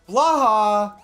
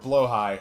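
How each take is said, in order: First: The name ends with a short 'ha' sound. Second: The name ends with a 'high' sound. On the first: The speaker calls it wrong. "I call them Blaha" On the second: The speaker calls it right. "the technically correct way to pronounce it is Blowhigh"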